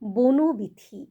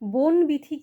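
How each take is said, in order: First: The first part ends with an added 'o' vowel. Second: The first part ends on a bare consonant. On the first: The speaker calls it right. "দুটো মিলে হবে" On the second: The speaker calls it wrong. "কখনোই হবে না"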